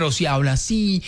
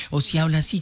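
First: Quick demo of a regional Colombian accent; imitated regional accent. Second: Said in the usual way. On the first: Shown as a demonstration. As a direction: toss off the line in a put-on regional Colombian accent. (imitando un acento regional colombiano)

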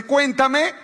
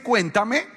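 First: "cuéntame" high rising sweet-talk; mock sweet "cuéntame". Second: "cuéntame" rising sweet-talk, less high; mock sweet "cuéntame". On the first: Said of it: "ese cuéntame". ("cuéntame" agudo y meloso) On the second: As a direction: lilt "cuéntame" up. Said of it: "Ese cuéntame". ("cuéntame" meloso) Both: Shown as a demonstration.

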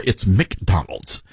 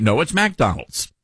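First: McDonald's with a first syllable like "Mick"; Northern MICK-Donald's. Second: McDonald's with a first syllable like "Mack"; Southern MAC-Donald's. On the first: Retold or imitated. Radio host imitating Northerners correcting him, McDonald's as "Mick-Donald's". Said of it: "They, they'll say, "It's McDonald's". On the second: Shown as a demonstration. Southern host defending his own way, McDonald's as "Mack-Donald's". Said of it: "So it's Mac".

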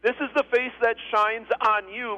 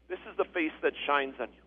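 First: Firm, lifted repeat of a benediction; emphatic blessing. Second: Soft, low quoted blessing; hushed, lowered delivery of a benediction; quiet blessing. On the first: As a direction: proclaim it line by line with weight. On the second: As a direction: say it gently, lower and softer. Blessing quoted softly, then repeated stronger. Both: Acted.

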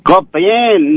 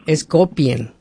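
First: Copien said like kopen, no i glide, higher; wrong pronunciation. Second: Copien said as ko-pien, with the i glide; stressing the ie in copien; teacher voice: copien with its ie sound; correct pronunciation. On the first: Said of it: "¿no es copen?". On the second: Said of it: "y es copiar?". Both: Shown as a demonstration.

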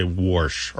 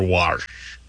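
First: "warsh" said as worsh, aw plus R; intrusive R. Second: "wash" with an ah vowel, like warsh; second dialect variant. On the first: Host quoting dialect speakers, "warsh" said as worsh. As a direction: say "warsh" with a rounded vowel before the R. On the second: Host giving the other variant, "wash" with ah plus R. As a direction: say "wash" to rhyme with marsh. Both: Shown as a demonstration. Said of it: "have this intrusive R and say".

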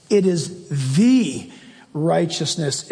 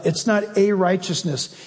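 First: "the" said slowly and held before "righteousness"; slow right down on "the"; stress on the. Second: "a" said long with a falling tone; stress on a. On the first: Preacher stressing "the" as the right article. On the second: Preacher stressing "a" as the wrong article. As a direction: lean on "a" to show it is wrong. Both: Shown as a demonstration. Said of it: "circle the word "the".

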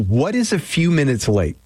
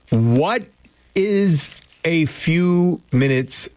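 First: Said in the usual way. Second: "what... is... a few minutes late", word by word; slow and deliberate. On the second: Real, not acted. Question repeated slowly for listeners.

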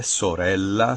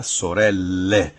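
First: Sorella with long L and final A; Italian final A. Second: Sorelle slowly, ending on a full E; Italian final E. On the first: Professor pairs singular with plural, Italian final A. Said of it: "Se a palavra termina em A". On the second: Professor pairs plural with singular, Italian final E. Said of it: "o plural é feito em E". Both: Shown as a demonstration.

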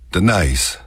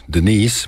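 First: Denise with a stretched, gliding last syllable; Texas diphthong. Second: Said in the usual way. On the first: Shown as a demonstration. Showing listeners Texas dialect, last syllable of Denise drawn out. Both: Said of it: "do it on the last syllable".

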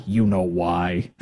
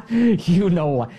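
First: Slow knowing. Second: "You know why" said through a laugh; half-laughing knowing aside. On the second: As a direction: chuckle it out knowingly. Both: Real, not acted.

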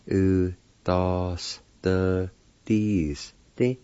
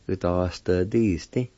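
First: "U, da, s, the, dis, di" in separated syllables. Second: Said in the usual way. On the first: Shown as a demonstration. Teacher repeating the word for penalty, syllable by syllable. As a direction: sound out each part deliberately. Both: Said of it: "This pronounced like this".

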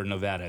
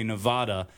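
First: "Nevada" as neh-VAD-a; Nevada with short a. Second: "Nevada" as neh-VAH-da; Nevada with broad ah. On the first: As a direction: local short A in "Nevada", as in "mad". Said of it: "local residents actually prefer Nevada". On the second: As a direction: open AH in the middle of "Nevada". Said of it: "pronouncing it the more correct way". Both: Shown as a demonstration.

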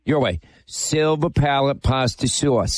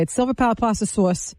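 First: Silver Palate Pasta Sauce, with "Sauce" said as "sus"; a slow put-on of her "Pasta Sauce" ending in "sus"; mocking her way. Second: "Sauce" said as "sors", with an r sound; "Pasta Sauce" said the Franklin Square way, "sors"; her proper way. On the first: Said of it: "Want me to say it the right way or your way?". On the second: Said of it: "That's not even the right way". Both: Shown as a demonstration.

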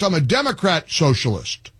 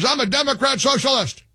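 First: Said in the usual way. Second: Lightly mimicked politician, pitched higher; a hint of Bernie, higher up; Bernie Sanders voice. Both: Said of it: "Uh, Bernie Sanders".

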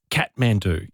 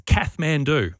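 First: Kathmandu said as "Kat-man-doo", hard t; corrected pronunciation. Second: Kathmandu, drawn out, th after the first vowel; mispronounced brand name. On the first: Shown as a demonstration. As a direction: say Kathmandu with a T, no th sound. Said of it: "So it's cat". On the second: Retold or imitated. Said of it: "my girlfriend ... she thinks that the".

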